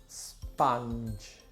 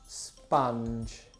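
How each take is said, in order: Both takes have the same delivery.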